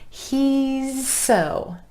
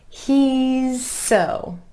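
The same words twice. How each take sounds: The two takes are said the same way.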